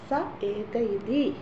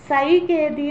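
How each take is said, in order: First: The words are said as three separate words. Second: The words are merged into one joined word. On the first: This is how it is written down. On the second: This is how it should be recited.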